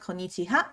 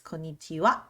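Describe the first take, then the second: First: The last syllable is pronounced 'ha'. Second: The last syllable is pronounced 'wa'. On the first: The speaker calls it wrong. "it's not konnichiha" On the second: The speaker calls it right. "it's konnichiwa"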